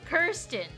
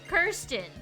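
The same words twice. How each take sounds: No difference in how they are said.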